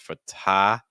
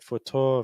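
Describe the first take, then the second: First: The second syllable has an open ah vowel. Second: The second syllable has a closed, rounded vowel. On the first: The speaker calls it right. "the second syllable is your ah sound like in stop or hot" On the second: The speaker calls it wrong. "our vowel sounds are a little bit closed off"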